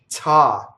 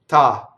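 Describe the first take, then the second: First: An English T with a puff of air. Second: An Italian T, compact and without air. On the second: "Italian, ... So the Italian is more compact, it's more voiced"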